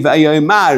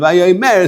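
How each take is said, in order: First: The final vowel sounds like 'a'. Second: The final vowel sounds like 'e'. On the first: The speaker calls it wrong. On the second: The speaker calls it right.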